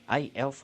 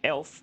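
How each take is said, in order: First: The name begins with a separate 'ay' sound. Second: The name is said as one syllable, 'elf'. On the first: The speaker calls it right. "but it's A Elf" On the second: The speaker calls it wrong. "I just say it Elf"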